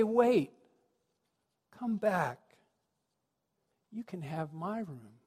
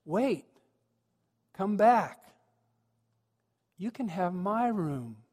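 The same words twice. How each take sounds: First: Tender requote. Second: Higher, eager calling after them; big-smile call. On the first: Preacher recalling the boy's kind offer, tender and fading. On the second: Boy innkeeper calling Mary and Joseph back, big smile. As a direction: call them back, then slow down on the offer. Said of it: "he gets this big smile, and he goes". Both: Acted.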